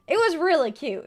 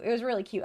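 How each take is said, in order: First: Higher, louder "It was really cute."; delighted gush. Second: Said in the usual way. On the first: Real, not acted. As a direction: gush over it. Excited recall.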